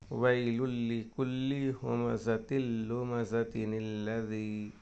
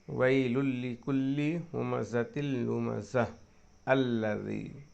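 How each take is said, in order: First: Lumazatin runs straight into alladhi without stopping. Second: It stops after lumazah, then says alladhi.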